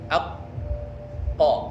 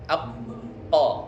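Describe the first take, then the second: First: The q sound is held for a long time. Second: The q sound is held only briefly. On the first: One reader guesses the hold should be long. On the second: Another reader guesses the hold should be short.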